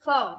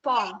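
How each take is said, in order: First: "form." said as a quick, reduced "from" with a schwa; light reduced "form."; weak form of from. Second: "form." said as a full, stressed "from" with its own vowel; strong form of from. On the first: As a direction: swallow the vowel in "form.". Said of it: "From is weak form". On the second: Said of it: "From is strong form". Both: Shown as a demonstration.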